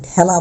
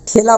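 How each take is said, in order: First: ঠেলা with open æ, "thæla"; correct pronunciation. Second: ঠেলা with a plain close e, "thela"; wrong pronunciation. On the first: Teacher shows students the required form, ঠেলা said with open æ. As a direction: say ঠেলা with the vowel of "cat". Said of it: "এর মতো হবে". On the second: Teacher shows students the form not to say, ঠেলা with a close e. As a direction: say ঠেলা as spelt, with e as in "they". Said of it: "এটা ঠেলা বলতে পারবো না". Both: Shown as a demonstration.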